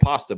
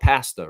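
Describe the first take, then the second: First: The word is said with an American pronunciation. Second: The word is said with a Canadian pronunciation. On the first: "I always said pasta, but I grew up in the States" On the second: "Up here, they call it pasta"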